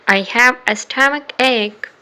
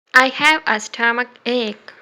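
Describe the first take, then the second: No difference in how they are said.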